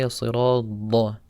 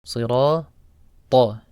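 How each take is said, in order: First: "as-sirata" ending in a heavy "da". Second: "Sirata" slowly, final "ta" punched loud; emphatic ta. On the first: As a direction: mispronounce "as-sirata", t softened to d. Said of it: "don't say". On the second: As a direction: say "Sirata" with a hard heavy t. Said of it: "the letter ta". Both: Shown as a demonstration.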